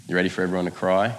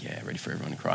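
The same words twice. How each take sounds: First: Said in the usual way. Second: Dry, breathy, muttered cynic; cynical mutter. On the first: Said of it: "I remember looking at Kate and I said". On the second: Retold or imitated. Mocking his younger self to the church, muttered and dry. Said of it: "Just classic cynic".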